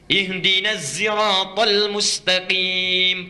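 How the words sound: Sirat begins with zai, Qunbul reading.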